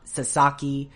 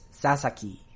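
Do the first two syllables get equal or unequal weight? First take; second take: unequal; equal. First: The first two syllables get unequal weight. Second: The first two syllables get equal weight. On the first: The speaker calls it wrong. "it's not Sasaki" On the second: The speaker calls it right. "the two Sas get about an equal amount of pronunciation"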